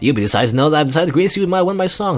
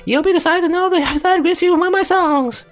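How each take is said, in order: First: The voice is lower and heavier. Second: The voice is higher and lighter.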